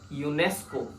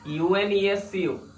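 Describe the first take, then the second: First: It is spoken as a single word. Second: Each letter is spoken separately. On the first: The speaker calls it right. "We say it as UNESCO" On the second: The speaker calls it wrong. "We don't say it as UNESCO"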